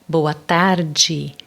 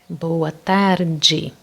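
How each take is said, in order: The two takes are said the same way.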